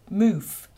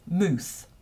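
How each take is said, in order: First: The word ends in an F sound. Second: The word ends in a TH sound. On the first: This is the new form used by young people. "with an F at the end" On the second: This is the traditional Scots form. "in Scottish English and in Scots, the word for mouth is mooth"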